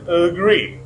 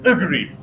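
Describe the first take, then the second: First: The stress is on the second syllable. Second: The stress is on the first syllable. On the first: "if you put on second syllable, ... which is correct" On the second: "If you put stress on first syllable"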